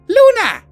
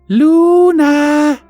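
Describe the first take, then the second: First: The name is shouted loudly. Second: The name is said a little louder.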